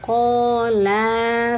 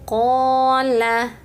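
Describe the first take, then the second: First: The second vowel is drawn out long. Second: The second vowel is kept short. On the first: The speaker calls it wrong. "Terkadang suka agak panjang nih bunda-bunda bacanya" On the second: The speaker calls it right. "pendek ya. Pastikan lamnya pendek"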